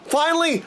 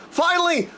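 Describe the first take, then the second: No difference in how they are said.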